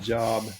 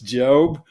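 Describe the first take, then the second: First: The vowel is short, as in 'job'. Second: The vowel is long, as in 'robe'. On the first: The speaker calls it wrong. "It's not Job" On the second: The speaker calls it right. "it should be written J O B E, but so we can pronounce it correctly"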